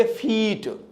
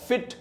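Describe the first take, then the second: First: 'फीट' with a stretched ee; long ee in 'फीट'; mistaken long vowel. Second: 'फिट' with a brief i; quick short i in 'फिट'; short vowel. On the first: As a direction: draw out the vowel of 'फीट' like feet. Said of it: "फिट के जगह पर आप पढ़ेंगे". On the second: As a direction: say 'फिट' short, unlike feet. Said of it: "उच्चारण को knowledge नहीं होगा". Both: Shown as a demonstration.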